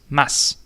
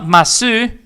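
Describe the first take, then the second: First: The final u vowel is dropped entirely. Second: The final u vowel is clearly pronounced. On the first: The speaker calls it right. "It is mas" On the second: The speaker calls it wrong. "So it's not masu"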